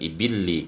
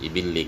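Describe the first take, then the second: First: The L sound is held long and doubled. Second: The L sound is short and single. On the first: The meaning becomes very different. "dengan tasdid" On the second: The word means camels. "Kalau dibaca tanpa tasdid itu maknanya unta"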